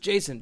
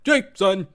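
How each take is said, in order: First: It is said smoothly without any break. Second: It is yelled with a hiccup-like break.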